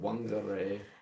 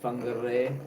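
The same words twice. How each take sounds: First: The word begins with a W sound. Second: The word begins with an F sound. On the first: "you look at it and you would pronounce it" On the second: "W H is pronounced ph"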